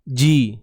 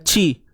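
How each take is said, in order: First: The consonant is a solid voiced 'j' sound. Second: The consonant is a voiceless 'ch' sound. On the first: The speaker calls it right. "Pastikan bunyinya betul-betul solid" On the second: The speaker calls it wrong. "jangan ci"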